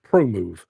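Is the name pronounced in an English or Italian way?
English. The name is said with English sounds. "I always pronounce them Promove"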